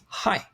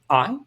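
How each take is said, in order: First: The vowel starts with a breathy h sound. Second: The vowel starts with no breathy h sound. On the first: "Rough breathing mark on the right indicates an aspiration" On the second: "smooth breathing mark on the left indicates no aspiration"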